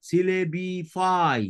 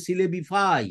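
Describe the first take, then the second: First: সিলেবিফাই drawn out slowly, syllable by syllable; syllable-by-syllable pronunciation. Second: Said in the usual way. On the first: Shown as a demonstration. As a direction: break সিলেবিফাই into slow, separate syllables for learners. Teacher repeats word syllable by syllable. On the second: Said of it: "verb form হবে".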